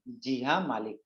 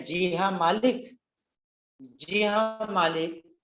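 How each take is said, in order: First: Softer, meek reply to the master; a hint of a frightened maid saying जी हाँ मालिक; quiet submissive "जी हाँ मालिक"; timid maid. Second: Drawn-out, halting "जी हाँ मालिक", higher; slow faltering "जी हाँ मालिक" in a strained voice; stammering. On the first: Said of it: "वो डरी सहमी हुई सी है". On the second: Acted. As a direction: stumble slowly over the words. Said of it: "तुतलाने लगता है".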